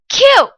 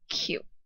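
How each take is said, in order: First: The pitch falls sharply and forcefully. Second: The pitch is light, short and soft. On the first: "In a forceful downward tone. ... that's the fourth tone" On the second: "really softly in that fifth neutral tone"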